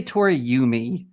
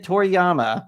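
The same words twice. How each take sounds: First: "Toriyumi" with YOO-mee at the end; wrong pronunciation. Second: "Toriyama" with YAH-mah at the end; intended pronunciation. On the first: Host denying what he was heard saying, "Toriyumi" ending yoo-mee. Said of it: "I did not say Toriyumi". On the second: Host correcting the co-host, "Toriyama" ending yah-mah. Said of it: "I said Toriyama". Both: Shown as a demonstration.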